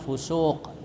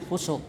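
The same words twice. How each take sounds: First: The vowel is held long. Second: The vowel is cut short. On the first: The speaker calls it right. "mestinya fusuk" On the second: The speaker calls it wrong. "bukan fusuk"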